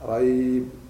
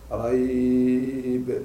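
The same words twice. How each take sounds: First: The vowel glide is held a moderate time. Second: The vowel glide is held a long time.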